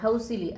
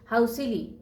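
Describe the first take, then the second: First: It is said flatly, without lively intonation. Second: It is said with lively, expressive intonation. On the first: The speaker calls it wrong. "हाऊसिली असं नाही" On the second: The speaker calls it right. "Proper इंटोनेशनमध्ये"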